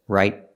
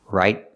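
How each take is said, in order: Both takes have the same delivery.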